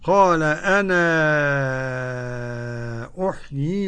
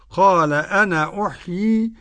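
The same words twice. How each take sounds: First: The final vowel of 'ana' is held very long. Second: The final vowel of 'ana' is held briefly. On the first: "مد منفصل ست حركات" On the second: "له القصر"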